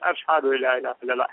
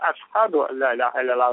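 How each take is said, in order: First: The first word is said with an 'sh' sound. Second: The first word is said with a plain 's' sound. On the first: This is the standard pronunciation. "вместо того, чтобы произносить" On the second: The speaker cannot produce the 'sh' sound. "Он произносил син, как бы говорил"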